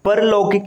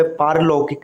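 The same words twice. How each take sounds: First: परलौकिक said "par-laukik", short a; wrong short vowel. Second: पारलौकिक said "paar-laukik", long aa; correct long vowel. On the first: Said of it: "ये गलत होता है". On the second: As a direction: open पारलौकिक with a drawn "paar". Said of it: "इसका सही स्वरूप है". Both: Shown as a demonstration.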